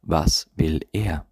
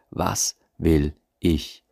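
First: Slow, heavy weight on er; stress on er. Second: Very slow, leaning on will; stress on will. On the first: Coach contrasting partners, slowly stressing er. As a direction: drag it out and hit er. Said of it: "ohne auch nur ansatzweise zu berücksichtigen". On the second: Coach to his audience, slowly weighting will. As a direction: spell it out slowly, pressing will. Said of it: "Sondern ausschließlich". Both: Shown as a demonstration.

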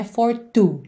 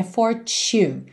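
First: For two, with a plain T sound; wrong way. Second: For two, slow, the TU said like CHU; the TU of fortunate like CHU; right way. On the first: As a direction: show the mistake, for two. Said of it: "Que não é for two". (for two, o jeito errado) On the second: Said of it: "é for two". (for two, com o T soando como tch) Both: Shown as a demonstration.

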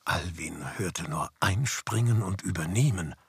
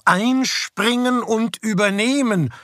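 First: Whispered narration. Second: High, slow, overjoyed repetition; elated. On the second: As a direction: savour each word like a gift. Joyful echo of the words. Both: A narrator's reading.

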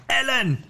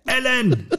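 First: Second call of the name. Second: Calling out a name. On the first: Reading the book aloud, Justus calls Ellen again. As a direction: call after him once more, falling away. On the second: Reading the book aloud, Justus calls after Ellen. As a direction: call the name out high, laughing a little. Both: Acted. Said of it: "rief er seinen Namen".

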